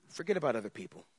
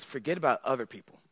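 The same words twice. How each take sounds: First: Softer repeat. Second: Quiet, faster "Forget about other people."; soft first take of "Forget about other people."; soft Jesus. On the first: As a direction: hush the repeat of "Forget about other people.". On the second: Jesus voiced speaking to disciples. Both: Acted.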